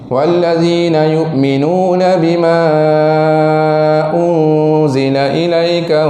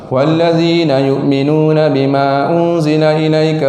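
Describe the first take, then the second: First: The vowel before ilaika is stretched out long. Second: The vowel before ilaika is held only briefly. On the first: This follows the tradition used locally today. "kita hari ni beramal yang Syatibi" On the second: This follows the faster recitation tradition. "Ibnu Jazari dia baca dengan dua harakat saja"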